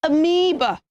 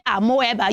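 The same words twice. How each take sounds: First: Amoeba as "uh-MEE-buh"; three syllables in amoeba, stressed MEE; correct pronunciation. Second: Amoeba as "ah-mo-EH-ba"; four syllables in amoeba, with "mo-eh"; wrong pronunciation. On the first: Teacher showing children what to say, careful amoeba. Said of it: "You should say amoeba". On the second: Teacher showing what not to say, mispronounced amoeba. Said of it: "Don't say amoeba". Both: Shown as a demonstration.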